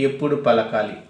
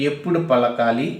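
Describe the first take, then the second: No difference in how they are said.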